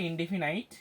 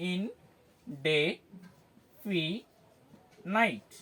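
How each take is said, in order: First: Said in the usual way. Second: ইন, ডে, ফি, নাইট as four separate beats, a clear pause after each; syllable by syllable. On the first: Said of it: "একটু সিলেবেল". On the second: Shown as a demonstration. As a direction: break ইনডেফিনাইট into ইন... ডে... ফি... নাইট. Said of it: "সিলেবেল ভাগ করে করে দেখি". (ইন-ডে-ফি-নাইট, থেমে থেমে সিলেবল ভাগ করে)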